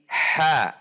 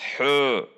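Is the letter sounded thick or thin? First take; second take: thin; thick. First: The letter sounds relaxed and thin. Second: The letter sounds thick and heavy. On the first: The speaker calls it right. "tetapi ha, ha, rileks, tipis" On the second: The speaker calls it wrong. "tidak dibaca hu"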